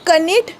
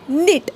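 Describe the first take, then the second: First: The word starts with a k sound. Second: The word starts with an n sound. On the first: The speaker calls it wrong. "कनीट नाही" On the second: The speaker calls it right. "नीट म्हणजे विणकाम करणे"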